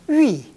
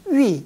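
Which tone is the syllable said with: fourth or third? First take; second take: fourth; fourth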